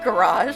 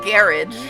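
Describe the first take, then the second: First: It is said with an American pronunciation. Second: It is said with a British pronunciation. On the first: The speaker calls it right. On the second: The speaker calls it wrong.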